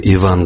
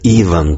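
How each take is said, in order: First: The name carries the native Russian stress placement. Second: The name carries the Italian-style stress placement. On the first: This is the original form of the name. "вместо «Иван»" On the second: This is how Italians say the name. "итальянцы ... говорят «Иван»"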